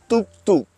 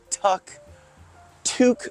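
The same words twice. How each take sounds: First: The first consonant is between D and T. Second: The first consonant is a hard T. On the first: This is the proper way to say it. The speaker calls it right. "it's kind of a D T sound, so it's tuk tuk. That's how you properly say it" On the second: This is how some other people say it. The speaker calls it wrong. "I've heard people say"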